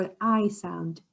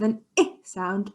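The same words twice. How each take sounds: First: Long "I" as in ice; letter "I" with its long vowel, as in iron; long I sound. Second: Short "I" as in igloo; short I sound. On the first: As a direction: say "I" like eye. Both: Shown as a demonstration. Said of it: "an I sound or an I sound".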